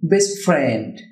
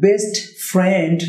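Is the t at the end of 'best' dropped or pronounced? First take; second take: dropped; pronounced. First: The t at the end of best is dropped. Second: The t at the end of best is pronounced. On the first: The speaker calls it right. "হবে বেস্ট friend" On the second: The speaker calls it wrong. "না হয়ে"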